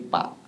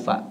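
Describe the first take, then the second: First: It begins with a p sound. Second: It begins with an f sound. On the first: The speaker calls it wrong. "tapi pak" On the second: The speaker calls it right. "Bukan fa"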